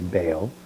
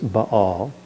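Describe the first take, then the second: First: The vowels merge into one gliding sound. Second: The two vowels are pronounced as separate sounds. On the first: The speaker calls it wrong. "even though we want to say Baal" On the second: The speaker calls it right. "It's Baal"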